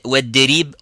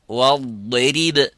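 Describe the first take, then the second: First: The word begins with a light, plain d. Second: The word begins with a heavy, emphatic d. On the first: The speaker calls it wrong. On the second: The speaker calls it right.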